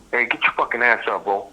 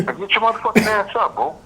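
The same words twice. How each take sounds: First: Said in the usual way. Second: Laughing yell. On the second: Retold or imitated. Waking him, laughing, escalated.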